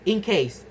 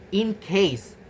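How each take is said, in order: First: The nasal before case moves back toward k. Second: The nasal before case is a plain n.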